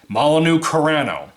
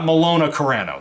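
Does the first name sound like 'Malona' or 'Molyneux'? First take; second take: Molyneux; Malona. First: The first name sounds like 'Molyneux'. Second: The first name sounds like 'Malona'. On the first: The speaker calls it right. "That's how you pronounce it" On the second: The speaker calls it wrong. "not Malona Carano. That's not what it says"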